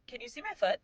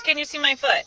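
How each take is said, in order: First: Put-on tiny, high, soft kid voice; imitated little child. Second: Said in the usual way. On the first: Five-year-old asking mom from back seat, soft high child voice.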